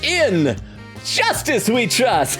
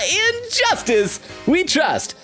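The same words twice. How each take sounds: First: There is a pause after 'in'. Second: 'In' runs straight into 'justice'.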